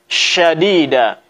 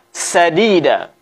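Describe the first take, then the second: First: It begins with a spread sh sound. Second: It begins with a sharp s sound. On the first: The speaker calls it right. "Tetapi yang benar adalah syadida" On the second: The speaker calls it wrong. "Jangan sampai kita baca sadida"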